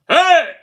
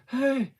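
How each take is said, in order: First: The word is shouted loudly, with full force. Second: The word is said quietly, with little force. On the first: The speaker calls it right. "That's where the bigger sound comes from" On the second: The speaker calls it wrong. "you wouldn't just say"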